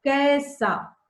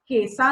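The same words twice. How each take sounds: First: "कैसा" with an open ai vowel; "कैसा" said carefully, ai not e; correct pronunciation. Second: "कैसा" with a closed e, like "केसा"; "कैसा" mispronounced with a pure e vowel; wrong pronunciation. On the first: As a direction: model "कैसा", opening wide on the ai. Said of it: "कैसा नहीं". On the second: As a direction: show the mistake, narrowing the ai of "कैसा" to e. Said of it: "नहीं". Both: Shown as a demonstration.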